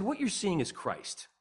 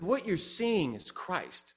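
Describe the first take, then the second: First: Slow, deliberate statement; measured answer. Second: Very slow, stretched-out statement; emphatic repetition. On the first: Telling a colleague where joy comes from, measured and slow. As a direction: state it slowly and evenly. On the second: Repeating it for a colleague who asked what, very slowly. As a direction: draw out every word for a puzzled listener. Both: Retold or imitated.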